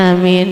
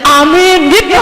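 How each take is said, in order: First: Limp amen. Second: Loud eager amen; a hopeful amen for the children. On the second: Preacher mimicking parents hoping only for their children: eager amen. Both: Shown as a demonstration. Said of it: "Kayak aminnya tuh gini ya".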